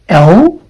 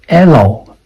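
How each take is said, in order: First: The letter has the standard English sound. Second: The letter has a Cantonese-style sound. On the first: The speaker calls it right. "That should be L, L, according to the I P A symbols" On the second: The speaker calls it wrong. "This one is not pronounced as the Cantonese sound"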